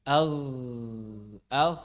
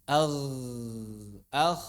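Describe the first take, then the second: No difference in how they are said.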